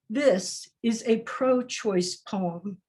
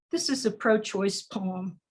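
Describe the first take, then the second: First: Slow, drawn-out repeat of This is a pro-choice poem; slow refrain. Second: Said in the usual way. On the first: Shown as a demonstration. Poet repeating her refrain to the audience, slowly. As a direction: stretch the repeat, letting each word sit.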